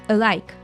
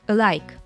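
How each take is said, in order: The two takes are said the same way.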